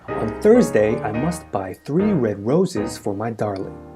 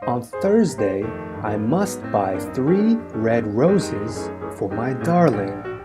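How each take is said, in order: First: The sentence is spoken at a fast pace. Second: The sentence is spoken at a medium pace. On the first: "A little quicker now" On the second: "let's try it a little faster now"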